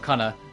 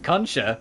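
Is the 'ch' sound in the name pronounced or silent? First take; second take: silent; pronounced. First: The middle 'ch' sound is left out. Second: The middle 'ch' sound is clearly pronounced. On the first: The speaker calls it right. "It's probably more Cunna. You probably don't pronounce the H" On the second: The speaker calls it wrong. "my brain really went"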